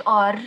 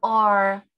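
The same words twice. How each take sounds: First: R trilled hard; rolled Arabic R. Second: R said light with tongue curled back; soft English R. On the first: Teacher showing the heavy R to avoid. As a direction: roll the R heavily, the wrong way. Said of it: "منقولش R". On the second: Teacher giving the right, softened R. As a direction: say the R softly. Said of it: "وال R". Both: Shown as a demonstration.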